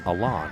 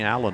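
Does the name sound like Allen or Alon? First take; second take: Alon; Allen. First: The name is said like Alon. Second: The name is said like Allen. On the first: The speaker calls it right. "but it is apparently" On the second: The speaker calls it wrong. "We've been saying Allen all year"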